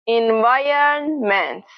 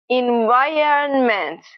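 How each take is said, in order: The two takes are said the same way.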